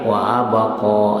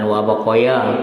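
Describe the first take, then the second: First: It ends on a long a vowel. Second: It ends with an added ya syllable. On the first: The speaker calls it right. "wa abqa alif berupa ya" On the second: The speaker calls it wrong. "bukan wa baqaya"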